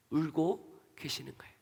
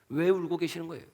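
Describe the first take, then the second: First: A tender whispered reveal; hushed whisper. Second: Said in the usual way. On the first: Acted. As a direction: breathe it out almost unvoiced, hushed and soft. Answer to why Jesus weeps.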